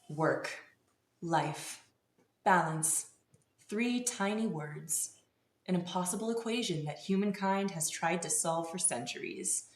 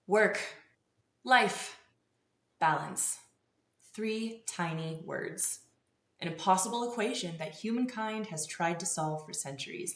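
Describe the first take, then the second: First: It is said in a less confident way. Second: It is said in a more confident way.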